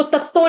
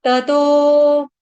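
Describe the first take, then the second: First: तत्तो with a doubled, stopped t; mispronounced तत्तो, geminated t; wrong doubling demo. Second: Drawn-out ततो without doubling; correct single consonant. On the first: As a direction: say तत्तो fast as tat-to. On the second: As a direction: stretch ततो as ta-tooo. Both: Shown as a demonstration. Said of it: "इसको तत्तो नहीं पढ़ेंगे".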